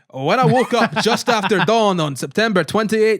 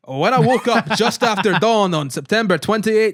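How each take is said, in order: First: It is read in a strong, put-on Scottish accent. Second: The same.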